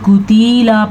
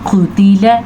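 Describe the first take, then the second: First: The middle vowel is drawn out long. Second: The middle vowel is kept short. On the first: The speaker calls it wrong. "बड़ी गलती क्या की जाती है, कुतीला पढ़ा जाता है, तो ये गलत है" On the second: The speaker calls it right. "इतनी इसकी मकदार है"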